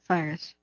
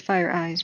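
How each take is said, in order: First: The name ends with a short 'us' sound. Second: The name ends with a long 'eyes' sound. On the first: This is how the name is actually pronounced. "I found out you pronounce it Firus" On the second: This is how the speaker wishes it were pronounced. "I think it should be Fire Eyes"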